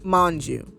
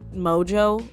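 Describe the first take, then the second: First: The name has an n sound in it. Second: The name has no n sound in it. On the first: This is how the speaker believes it is said. The speaker calls it right. "there's an N in there" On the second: This is how others often say it. The speaker calls it wrong. "I feel like I've heard it say Mo- Mojo"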